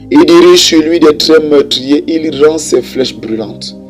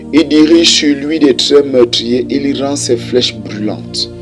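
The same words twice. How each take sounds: The two takes are said the same way.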